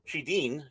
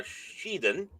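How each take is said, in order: First: Shedin said as shee-DEEN; second try at Shedin, ending like "dean"; corrected Shedin. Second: Shedin said as SHEE-dun; first try at Shedin, ending in -dun; mispronounced Shedin. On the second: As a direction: say Shedin with a weak, reduced last syllable. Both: Real, not acted. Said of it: "sorry, Shedin".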